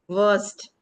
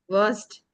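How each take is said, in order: No difference in how they are said.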